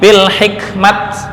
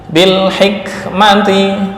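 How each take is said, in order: First: The word ends with a bare t sound. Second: The word ends with t and a vowel.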